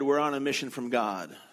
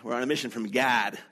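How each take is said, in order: First: It is said in the speaker's ordinary accent. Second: It is said in a Chicago accent.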